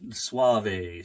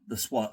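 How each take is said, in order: First: The name is pronounced in a Spanish way. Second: The name is pronounced in an English way. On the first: The speaker calls it right. "It's Spanish" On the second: The speaker calls it wrong. "I was supposed to get it right this time"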